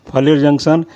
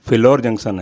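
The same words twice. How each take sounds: First: फलेर said as "falair", first vowel a, ending in e; mispronounced station name. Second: फिलौर said as "phi-laur", aspirated ph, short i, then au; corrected pronunciation. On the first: Presenter listing Punjab stations, stumbling over फलेर. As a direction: read फलेर with a short flat a and end on "-ler". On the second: Presenter correcting his earlier slip, carefully saying फिलौर. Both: Real, not acted. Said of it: "उसका भी pronunciation".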